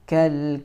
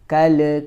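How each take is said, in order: First: The final l ends cleanly without a bounce. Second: The final l bounces with an added vowel. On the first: The speaker calls it right. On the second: The speaker calls it wrong.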